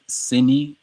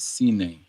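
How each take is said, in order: First: The word ends with an ee sound. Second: The word ends with an eh sound. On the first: The speaker calls it right. "Sini, not sine" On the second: The speaker calls it wrong. "not sine"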